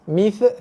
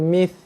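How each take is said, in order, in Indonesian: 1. Bunyi th berakhir dengan gema yang memantul. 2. Bunyi th dilepaskan perlahan dengan hembusan nafas. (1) "mengkol-kolahkan huruf tha ... salah" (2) "Dia kena mith"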